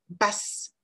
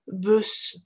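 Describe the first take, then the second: First: The vowel is an open English sound, lips spread. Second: The vowel is a rounded French-like sound. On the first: The speaker calls it right. "c'est basse, basse. Gardez bien vos lèvres étirées" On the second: The speaker calls it wrong. "ce n'est pas bus"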